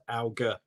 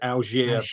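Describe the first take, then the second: First: The name is said English style, hard g. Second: The name is said French style, soft g. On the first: The everyday London pronunciation the speaker uses. "the very London-based Alger hard G" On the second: The name's original French pronunciation. "I think it's French and I think it's Algier"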